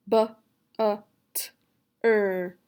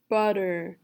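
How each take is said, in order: First: BUTTER split into b, u, t, er with gaps; sounding out. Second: Said in the usual way. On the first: Shown as a demonstration. Teacher leading the student through butter, sounding out. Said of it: "Say the sounds with me". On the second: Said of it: "you will say the whole word".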